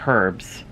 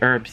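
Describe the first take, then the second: First: It is said the British way, with h. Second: It is said the American way, without h.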